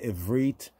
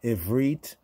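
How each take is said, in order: No difference in how they are said.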